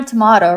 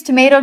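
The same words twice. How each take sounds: First: "tomato" with a long AH, to-MAH-to; British tomato. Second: "tomato" with an AY in the middle, to-MAY-to; American tomato. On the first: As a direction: say "tomato" the English way. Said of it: "I was born in England". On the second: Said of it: "I think it's tomato, tomato". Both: Shown as a demonstration.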